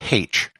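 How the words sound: It is said the Catholic way, as haitch.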